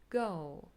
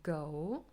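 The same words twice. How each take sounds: First: It is said in an American accent. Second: It is said in a British accent. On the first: "and in American English" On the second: "here's an example word for British English"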